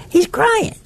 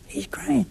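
First: "He's crying." said very high with a rising lilt; a high, pleading "He's crying."; pitying cry. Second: A soft, sorrowful "He's crying."; hushed. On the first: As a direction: lift "He's crying." up high in tender pity. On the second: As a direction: let "He's crying." fall away nearly to a whisper. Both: Acted. Pointing to the crucifix, pity.

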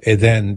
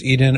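First: Eden said as eh-DEN; alternative pronunciation. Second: Eden said as EE-den; first pronunciation option. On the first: Host offering another reading of the name, Eden said eh-DEN. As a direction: say Eden with short e's, weight on the second syllable. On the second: Host unsure of a listener's name, Eden said EE-den. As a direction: say Eden with a long ee at the start. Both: Shown as a demonstration. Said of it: "forgive me if I'm mispronouncing it".

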